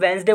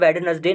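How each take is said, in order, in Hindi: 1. यह दो अक्षरों में बोला जाता है, पहला 'd' साइलेंट है। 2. यह तीन अक्षरों में बोला जाता है, पहला 'd' बोला जाता है। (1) "इसे दोस्तों वेंसडे बोलते हैं" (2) "वेडनेसडे नहीं बोलते"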